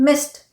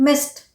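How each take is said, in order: No difference in how they are said.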